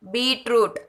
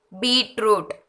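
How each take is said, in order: Both takes have the same delivery.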